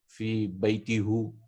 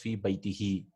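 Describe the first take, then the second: First: The word ends with the vowel 'u'. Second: The word ends with the vowel 'i'. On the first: The speaker calls it wrong. "they didn't want to say" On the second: The speaker calls it right. "So what they did was fi baitihi"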